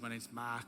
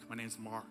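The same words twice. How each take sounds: First: It is said in an Australian accent. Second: It is said in an American accent. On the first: The listener misheard the name as Mike. The speaker calls it wrong. "He called me Mike for ten days" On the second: The name is understood by Americans. The speaker calls it right. "So I learned to say Mark. ... So I've got a very American accent"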